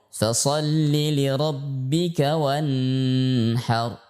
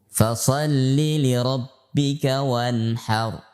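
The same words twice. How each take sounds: First: The n in wanhar is droned nasally. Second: The n in wanhar is said plainly. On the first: The speaker calls it wrong. "dibaca dengan mendengung" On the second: The speaker calls it right.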